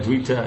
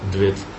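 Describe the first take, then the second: First: The name ends with a final vowel. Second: The name ends with a consonant.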